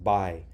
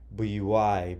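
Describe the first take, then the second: First: The word is said as one syllable. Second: The word is split into two syllables. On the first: The speaker calls it right. "it's one syllable, it's just buy" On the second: The speaker calls it wrong. "But we don't say buyui"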